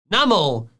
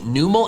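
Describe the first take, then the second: First: The first syllable sounds like 'numb'. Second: The first syllable sounds like 'new'. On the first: The speaker calls it right. "It's num and camel" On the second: The speaker calls it wrong. "I started calling it Numel as a kid"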